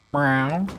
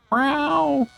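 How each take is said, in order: First: Lower, short rising meow; low cat meow. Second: Squeaky high meow, falling; high cat meow. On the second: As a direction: meow like a tiny kitten. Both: Pretend. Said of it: "Meowing brought out all of the kitties".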